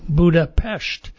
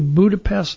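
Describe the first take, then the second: First: The last syllable ends with an sh sound. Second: The last syllable ends with an s sound. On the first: The speaker calls it right. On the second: The speaker calls it wrong.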